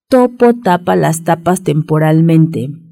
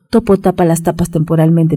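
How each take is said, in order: First: The phrase is said at a normal pace. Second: The phrase is said at a faster pace.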